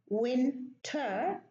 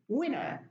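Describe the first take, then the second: First: The T is pronounced, British style. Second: The T is dropped, American style.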